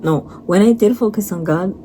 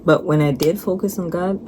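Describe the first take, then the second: First: "did" pushed up and louder to fix the line; "no, when I DID focus" stressed; corrective stress on did. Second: Said in the usual way. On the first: Real, not acted.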